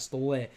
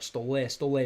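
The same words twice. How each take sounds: First: "stole" said as the plain English word "stole", one syllable; English pronunciation. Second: "Stole, stole" said as "sto-LYEH", with the ending stressed; Russian pronunciation. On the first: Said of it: "not stole". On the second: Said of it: "maybe like this, not stole". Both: Shown as a demonstration.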